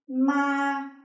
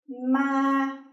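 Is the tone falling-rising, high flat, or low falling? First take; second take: high flat; high flat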